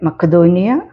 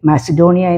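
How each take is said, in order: First: The middle consonant is a k sound. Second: The middle consonant is an s sound.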